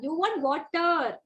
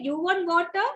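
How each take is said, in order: First: Slow, drawn-out "You want water?"; clear model. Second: Quick rising "You want water?"; unmodelled question. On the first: Teacher models the question for a child, slow and clear. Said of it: "you have to model the same". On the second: Teacher shows what not to say, quick question. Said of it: "don't say". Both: Shown as a demonstration.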